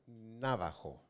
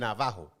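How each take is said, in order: First: The stress is not on the middle syllable. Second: The stress is on the middle syllable. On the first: The speaker calls it wrong. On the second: The speaker calls it right. "Ahí sí, la fuerza va en el medio porque es llana"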